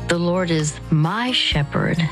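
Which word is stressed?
my. The stress is on the word my.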